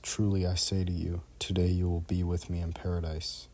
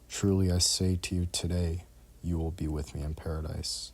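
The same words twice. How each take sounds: First: The pause falls before the word 'today'. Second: The pause falls after the word 'today'. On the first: Paradise is reached that same day. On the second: The promise itself is made that day.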